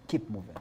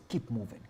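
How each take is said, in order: Both takes have the same delivery.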